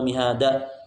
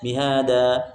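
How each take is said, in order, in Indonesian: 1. Vokal panjangnya dipendekkan. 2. Vokal panjangnya dibaca lebih panjang. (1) "terlalu cepat ... berarti hilang matnya" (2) "Harusnya mihada, cukup segitu"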